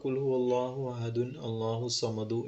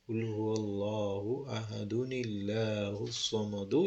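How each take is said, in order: First: Ahadun is said apart from Allah, unlinked. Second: Ahad links into Allah through a 'ni' sound. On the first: The speaker calls it wrong. "ദുൻ എന്ന് പറയാൻ പാടില്ല" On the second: The speaker calls it right. "അങ്ങനെയാണ് പോകേണ്ടത്"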